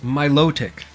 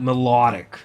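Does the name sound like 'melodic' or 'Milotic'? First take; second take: Milotic; melodic. First: The name ends in a clear t sound. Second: The name ends in a d sound. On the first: The speaker calls it right. "It's Milotic" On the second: The speaker calls it wrong. "not melodic"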